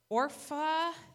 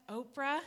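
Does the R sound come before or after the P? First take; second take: before; after. First: The R sound comes before the P. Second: The R sound comes after the P. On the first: The speaker calls it right. "there we go" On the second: The speaker calls it wrong. "but it's not Oprah"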